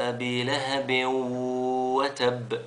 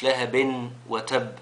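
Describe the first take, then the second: First: لهب وتب very slowly with the tanween merged into the waw, lahabiw-watabb; correct merged reading. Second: لهب وتب slowly with the tanween nun said clearly, lahabin watabb; wrong reading shown. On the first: Teacher to children, reciting the right way very slowly. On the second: Teacher to children, showing the mistake with the nun sounded. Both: Shown as a demonstration. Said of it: "مش لهب وتب".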